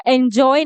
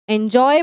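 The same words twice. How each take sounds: First: "एंजॉय" opening on "in" for "en"; mispronunciation. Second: "एंजॉय" opening on a clear "en"; correct pronunciation. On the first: Teacher quoting students' mistake, "एंजॉय" mispronounced in-joy. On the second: Teacher showing students the right word, "एंजॉय" said en-joy. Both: Shown as a demonstration. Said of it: "इसको एंजॉय नहीं".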